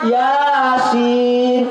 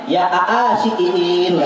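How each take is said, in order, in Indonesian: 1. Setiap vokal dibaca sebagai satu bunyi panjang. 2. Vokal ganda dipecah menjadi ketukan terpisah. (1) "Ya dibaca panjang, sin dibaca panjang" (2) "karena dia baca Latinnya"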